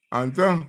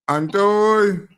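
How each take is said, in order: First: Said in the usual way. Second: Calling out. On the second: Real, not acted. Host calls caller onto line.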